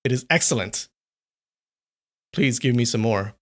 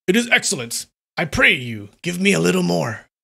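First: Said in the usual way. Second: Higher, livelier voice of the pleased samurai; eager samurai. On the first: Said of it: "Wait, let me do that again". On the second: Shown as a demonstration. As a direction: say it like he truly relishes it. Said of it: "let me do that again".

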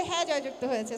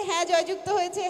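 First: Said in the usual way. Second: Loud proclaiming chairman call; ceremonial announcement. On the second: Acted. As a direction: declare the winning side loudly. Repeats vote result.

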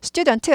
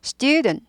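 First: Student spelled out in full Korean syllables, stu-deon-teu; student with a vowel added on the final t; Korean-style student. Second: Student as two beats, STYU-dn, final t swallowed; long stressed first syllable in student, weak ending. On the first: Teacher showing learners the wrong way, Korean-style student. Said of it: "student 아니에요". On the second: Teacher modelling student for learners, two-beat pronunciation. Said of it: "네 박자라고 생각하시는데 아닙니다". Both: Shown as a demonstration.

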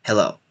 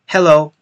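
First: "Hello" lower and softer, tossed off; the careless hello a teacher wouldn't use; quiet, offhand "Hello"; not like a teacher. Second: Energetic classroom "Hello"; English teacher hello. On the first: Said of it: "and it's not like". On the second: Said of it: "I want to speak like the English teacher". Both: Shown as a demonstration.

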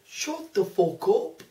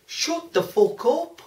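First: Put-on slow Scouse accent take. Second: Put-on slow Lancashire accent. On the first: Repeating the line on request, slow Scouse accent. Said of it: "Say it again". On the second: Voicing a rude email in a Lancashire accent. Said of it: "what kind of accent that was supposed to be".

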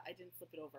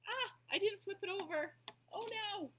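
First: Said in the usual way. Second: Sudden high, loud cry of dismay; dismayed surprise. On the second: Real, not acted. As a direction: caught a mistake mid-craft, blurt it out. Realises she painted wrong side.

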